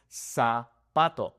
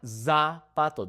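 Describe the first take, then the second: First: Zapato starting with a plain s, slowly; clean S sound. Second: Zapato with a buzzing English z. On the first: Teacher demonstrating the correct sound. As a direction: say zapato like sapato. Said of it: "It is". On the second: Teacher demonstrating the wrong sound. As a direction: start zapato with a voiced z. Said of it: "That is incorrect". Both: Shown as a demonstration.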